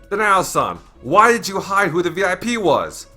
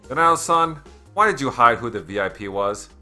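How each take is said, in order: First: It is said as a loud exclamation. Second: It is said as a calm question.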